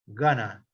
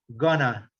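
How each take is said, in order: First: It is said as one reduced word. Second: It is said as one reduced word.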